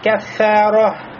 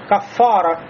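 First: The 'k' and 'f' sounds are thin and light. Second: The 'k' and 'f' sounds are thick and full. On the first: The speaker calls it right. "проявляем заботу о тонкости звуков «каф» и «фа»" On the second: The speaker calls it wrong. "некоторые арабы даже говорят как «кафара»"

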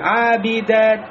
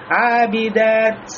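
First: The final t has no hiss and sounds dropped. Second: The final t ends with an audible breathy hiss. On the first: The speaker calls it wrong. "А если я шипение уберу, эта буква теряется полностью ... как будто я ее не произнес" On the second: The speaker calls it right. "А если я добавляю хамс"

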